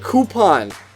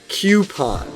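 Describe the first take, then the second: First: The first syllable sounds like 'coo'. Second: The first syllable sounds like 'cue'. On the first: The speaker calls it right. "then just say coupon" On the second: The speaker calls it wrong. "as if there's a Q in there somewhere"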